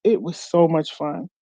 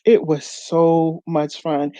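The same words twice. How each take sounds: First: Said in the usual way. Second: Slowed down, savouring each word of "It was so much fun"; slow emphatic. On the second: Real, not acted. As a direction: linger on "so much fun" slowly.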